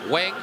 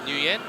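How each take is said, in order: First: The name sounds like a single syllable, 'Weng'. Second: The name sounds like 'Nuh-win', in two syllables.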